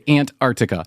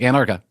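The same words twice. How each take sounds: First: The word is said slowly with careful pauses. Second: The word is said quickly and run together. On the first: The speaker calls it right. "I always have to pause and say Antarctica" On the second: The speaker calls it wrong. "you can't say just like quickly like Antarctica"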